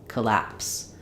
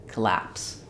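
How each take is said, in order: The two takes are said the same way.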